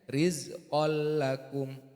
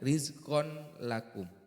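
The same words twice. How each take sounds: First: The n merges into a doubled l sound. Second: The n is pronounced clearly before the l. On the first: The speaker calls it right. "tapi dibaca" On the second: The speaker calls it wrong. "bukan dibaca"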